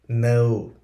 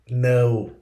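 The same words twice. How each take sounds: First: The word begins with an N sound. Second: The same.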